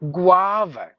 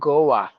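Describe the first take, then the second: First: The first syllable sounds like gwa. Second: The first syllable sounds like go. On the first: The speaker calls it right. "G W A V A" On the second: The speaker calls it wrong. "It's not Goa"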